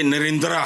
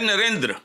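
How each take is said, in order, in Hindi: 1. नाम के अंत में एक पूरा, लंबा अंतिम स्वर है। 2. नाम के अंत में एक हल्का, छोटा अंतिम स्वर है। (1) "ना ये नरेंद्रा है" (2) "हल्का-सा बस देख के गुज़र जाना है"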